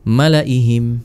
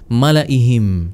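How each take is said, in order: No difference in how they are said.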